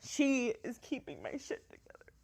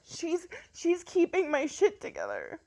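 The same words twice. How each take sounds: First: Softer, tearful repeat; quiet tears. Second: High tearful voice breaking; crying. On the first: Mom repeating to viewers what her daughter means, softly tearful. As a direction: let it sink in, almost to herself. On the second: Mom telling viewers her daughter keeps her going, tearful. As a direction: push the words out through happy tears. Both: Real, not acted. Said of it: "these are good tears".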